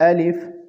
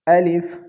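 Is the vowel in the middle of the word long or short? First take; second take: short; short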